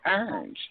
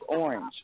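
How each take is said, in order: First: The word is squeezed into a Southern-accented form. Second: The word is said in a plain, standard form. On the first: "y'all speak a whole nother language in Florida" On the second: "my cousin looked and said it's orange"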